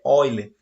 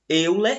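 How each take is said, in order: First: The name is pronounced differently from its spelling. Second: The name is pronounced the way it is spelled. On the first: The speaker calls it right. "a pronúncia correta é Euler" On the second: The speaker calls it wrong. "apesar de se escrever aí, como vocês podem ver no slide"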